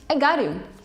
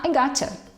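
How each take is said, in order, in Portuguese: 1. Got e you são ditas como palavras separadas. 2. Got e you se juntam numa palavra só, gotcha.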